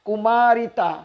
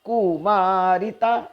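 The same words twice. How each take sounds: First: The word is said smoothly without a break. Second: The syllable ku is split off with a break. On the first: The speaker calls it right. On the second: The speaker calls it wrong.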